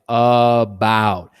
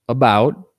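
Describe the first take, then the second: First: Both syllables get full, equally careful vowels. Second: The first vowel is a short, weak schwa. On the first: The speaker calls it wrong. "I'm not saying it like about. If I say it like that, I lose the schwa" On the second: The speaker calls it right. "like you would in normal speech"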